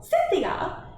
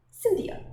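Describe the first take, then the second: First: High, loud, falling summons; impatient lady's shout for someone; impatient call. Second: High-pitched call to someone; lady's high, lilting call. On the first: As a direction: call her sharply, out of patience. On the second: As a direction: summon her from a little way off. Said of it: "called Missus Inglethorpe". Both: A narrator's reading.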